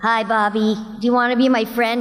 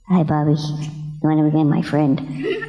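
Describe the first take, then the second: First: The voice is big, energetic and exaggerated. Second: The voice is toned down and restrained. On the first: The speaker calls it wrong. "Too much" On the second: The speaker calls it right. "less, less"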